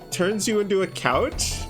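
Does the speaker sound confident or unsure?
unsure. It is said hesitantly, like an unsure question.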